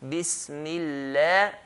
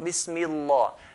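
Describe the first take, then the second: First: The L is light, with an empty mouth. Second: The L is heavy, with a full mouth. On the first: The speaker calls it right. "If he has a kasra, we pronounce it lightly" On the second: The speaker calls it wrong. "Not Bismillah"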